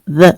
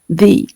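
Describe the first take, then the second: First: The vowel is short and neutral, like 'thuh'. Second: The vowel is a long 'ee', like 'thee'. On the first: The next word begins with a consonant sound. "que combina com mother. A palavra mother é esse som aqui" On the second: The next word begins with a vowel sound. "Combina com C"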